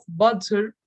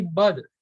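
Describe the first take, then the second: First: "butter" with a crisp T in the middle; clear T. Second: "butter" said like "budder". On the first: Teacher showing what to avoid, "butter" with full T. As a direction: sound the T fully in "butter". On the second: Teacher showing natural speech, "butter" with a D sound. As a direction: soften the T in "butter" to a quick D. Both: Shown as a demonstration. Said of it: "Pronouncing T's as D's".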